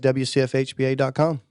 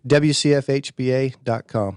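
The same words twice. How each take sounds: First: It is said at normal, quicker speed. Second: It is said slowly and deliberately.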